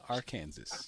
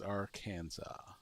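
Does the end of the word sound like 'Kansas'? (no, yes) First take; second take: yes; no. First: The ending sounds like the word 'Kansas'. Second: The ending does not sound like 'Kansas'. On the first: The speaker calls it wrong. "not Arkansas" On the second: The speaker calls it right. "the correct pronunciation is Arkansas"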